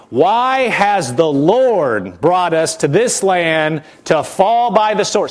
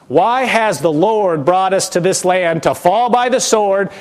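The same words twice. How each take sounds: First: Slow, drawn-out accusing question. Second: Whining. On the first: Preacher voicing Israel accusing God, slow and accusing. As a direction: stretch each word out like an accusation. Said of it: "This is the voice of the accuser". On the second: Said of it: "Can you hear the whine in their voice". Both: Retold or imitated.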